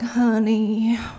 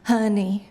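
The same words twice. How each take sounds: First: It is said warmly with long drawn-out vowels. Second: It is said stiffly with short clipped vowels.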